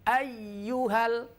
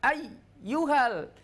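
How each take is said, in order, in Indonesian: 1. Suaranya mengalir terus tanpa putus. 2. Suaranya terputus dengan jeda. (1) "tidak terputus tapi nyambung suaranya" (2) "bukan ayyuhal"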